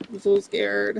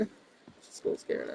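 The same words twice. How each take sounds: First: High, hammed-up frightened voice; mocking fear, pitched up; mock scared. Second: Whispered, mocking fear; hammed-up frightened whisper; mock scared whisper. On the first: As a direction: mimic a cowering heckler. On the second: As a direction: breathe it like a cowering heckler.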